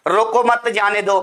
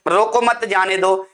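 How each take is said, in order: First: Group मत with जाने दो; pause after रोको. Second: रोको मत together, then जाने दो; group मत with रोको, then break; pause after मत. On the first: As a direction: break after रोको, then मत जाने दो together. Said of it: "एक का मतलब रोकना". (रोको के बाद विराम) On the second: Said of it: "एक का भगाना". (मत के बाद विराम) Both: Shown as a demonstration.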